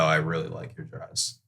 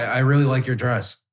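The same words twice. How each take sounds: First: The voice is relaxed, slower and drops at the end. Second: The voice sounds tense and hurried. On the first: The speaker is at ease. The speaker calls it right. "Just slow down at the end of the sentence, and you know, just drop your voice a little bit" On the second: The speaker is nervous. The speaker calls it wrong. "This is how you would say it if you were tensed up"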